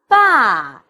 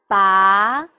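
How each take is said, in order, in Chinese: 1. 音高从高降到低。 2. 音高从中到高上升。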